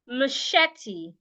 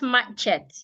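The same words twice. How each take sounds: First: The middle consonant sounds like 'sh'. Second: The middle consonant sounds like 'ch'. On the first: The speaker calls it right. "The C H in this word also sounds like S H" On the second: The speaker calls it wrong. "not machete"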